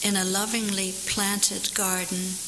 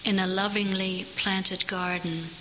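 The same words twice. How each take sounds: The two takes are said the same way.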